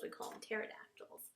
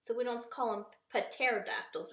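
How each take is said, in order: First: Pterodactyls whispered, P not sounded; soft, silent P. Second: Said in the usual way. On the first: Shown as a demonstration. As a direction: drop the P in pterodactyls and hush it. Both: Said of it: "that P is silent".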